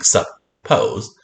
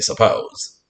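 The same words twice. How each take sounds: First: Every sound is pronounced fully and distinctly. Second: It is said in an ordinary, reduced way. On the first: This is how to think of it for spelling. "to spell, we're going to think suppose" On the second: This is how it is normally read aloud. "when we read this word, we just say suppose"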